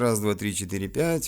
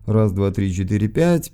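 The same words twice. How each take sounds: First: The treble is boosted, so the voice sounds bright. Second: The treble is cut and bass boosted, sounding bassy. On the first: "Вот вам высокие" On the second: "Вот я их сейчас уберу полностью. Добавлю сразу низа"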